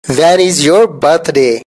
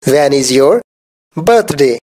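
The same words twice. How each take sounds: First: Said in the usual way. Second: When is your, pause, birthday; chunked with pauses. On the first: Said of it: "teacher models the sentence". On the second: Shown as a demonstration. Teacher repeating for learners, split with a pause. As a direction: say it in two slow pieces. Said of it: "teacher repeats it in chunks".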